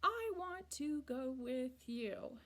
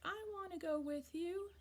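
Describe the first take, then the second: First: Each word is said separately and slowly. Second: The words are run together quickly.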